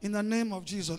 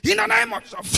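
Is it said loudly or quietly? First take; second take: quietly; loudly. First: It is said quietly and calmly, without noise. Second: It is said loudly, shouted like an evangelist.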